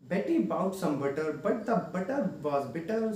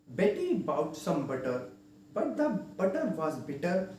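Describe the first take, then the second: First: It is said at a quicker pace. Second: It is said at a slow pace.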